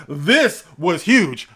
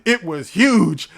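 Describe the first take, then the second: First: Slow, heavy stress on "This". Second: Big shouted huge; loud. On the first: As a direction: lean hard on "This was huge". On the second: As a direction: belt out huge. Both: Shown as a demonstration. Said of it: "No, it wasn't huge".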